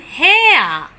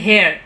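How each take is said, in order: First: The vowel glides from 'e' toward 'uh'. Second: The vowel does not glide toward 'uh'. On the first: The speaker calls it right. "Ea as in hair" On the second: The speaker calls it wrong. "we normally tell hair, which is completely wrong"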